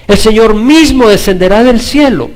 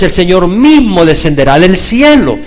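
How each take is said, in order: First: Higher and louder, mismo hit; preached louder. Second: Loud, stress on mismo; louder proclaim. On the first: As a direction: lift it up, hammer mismo. (más fuerte y agudo, marcando mismo) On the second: (proclamado fuerte, acentuando mismo) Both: Shown as a demonstration.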